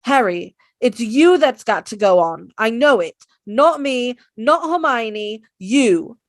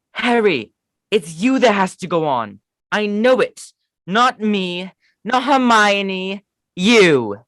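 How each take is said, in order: First: Louder, earnest Ron urging Harry on; Ron impression. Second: Higher, drawn-out not Hermione; Ron impression. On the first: Ron urging Harry to go on, louder insistent. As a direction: push Harry forward, insistent. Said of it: "the next one is Ron". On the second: Ron telling Harry he must go, higher pleading. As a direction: plead with Harry, slow at the end. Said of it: "I do not have that good of a British accent".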